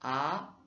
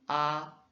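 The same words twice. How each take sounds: First: The pitch rises from low to high. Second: The pitch stays level and flat. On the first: "c'est un son montant" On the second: "le premier son du A qui est plat"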